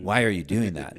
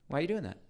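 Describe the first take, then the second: First: It sounds judgmental and accusing. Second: It sounds curious and interested.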